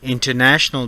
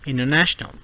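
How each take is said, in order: First: The T sound after N is pronounced. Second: The T sound after N is dropped.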